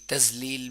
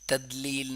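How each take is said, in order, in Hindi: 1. दूसरा अक्षर z की आवाज़ से शुरू होता है। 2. दूसरा अक्षर हल्के सामान्य d से शुरू होता है। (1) "तजलील भी नहीं करेंगे, तजलील भी किया तो बड़ी गलती हो गई" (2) "तदलील नहीं करेंगे, तदलील किया तो बड़ी गलती हो गई"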